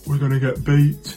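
It is said in an odd put-on voice.

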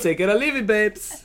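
It is said in a put-on Dutch accent.

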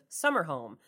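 The stress falls on the word summer. The speaker calls it right. "Put the emphasis on summer"

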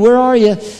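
It sounds like a playful child searching.

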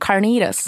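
It is said with an American accent.

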